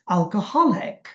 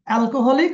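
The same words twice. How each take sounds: First: One syllable is given strong stress. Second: No syllable is given strong stress. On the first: The speaker calls it right. "এই যে হাতে জোর দিচ্ছি" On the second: The speaker calls it wrong. "আমরা বলি"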